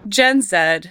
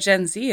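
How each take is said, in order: First: The letter Z is pronounced 'zed'. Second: The letter Z is pronounced 'zee'. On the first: This is the speaker's own Canadian way of saying it. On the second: This is how people in the United States say it.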